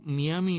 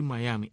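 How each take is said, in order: First: "Miami" read as spelled, mee-AH-mee; incorrect Spanish reading. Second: "Miami" said as mah-YAH-mee. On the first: Host corrects fellow Cubans, showing "Miami" as mee-AH-mee. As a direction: start "Miami" with a "mee" sound. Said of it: "Miami no es correcto". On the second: Host gives the correct name, "Miami" as mah-YAH-mee. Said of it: "Lo correcto es decir Miami". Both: Shown as a demonstration.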